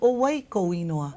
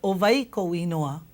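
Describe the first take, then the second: First: The 'w' letter is said as a W glide. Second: The 'w' letter is said as a V sound. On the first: This is how it was said on another island. "and he said" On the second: This is how it was said in one family. "hearing my grandma say"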